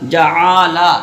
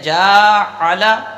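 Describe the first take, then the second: First: The second syllable's vowel is drawn out long. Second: The first syllable's vowel is drawn out long. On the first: "ऐन को खींच दिया" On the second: "हमने थोड़ा सा आवाज़ को खींच लिया और कह दिया"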